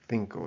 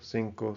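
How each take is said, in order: First: The first consonant is a th sound. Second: The first consonant is an s sound. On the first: This is how it is said in Spain. "It's like a th sound" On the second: This is how it is said in most Latin American countries. "pronouncing these the way that you would in most Central and South American countries"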